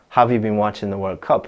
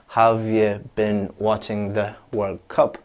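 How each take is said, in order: First: The sentence is said quickly. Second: The sentence is said slowly. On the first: "really, really quickly" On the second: "If I say it slowly"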